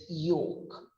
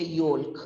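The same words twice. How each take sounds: First: "yolk" said softly as YOKE; long o and no L in "yolk"; silent L. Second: "yolk" said wrongly with the L heard; L sounded. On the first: Teacher giving the correct yolk, soft YOKE with silent L. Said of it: "it's yolk". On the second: Teacher showing what we don't say, yolk with L sounded. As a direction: pronounce the L in "yolk". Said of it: "We don't say yolk". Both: Shown as a demonstration.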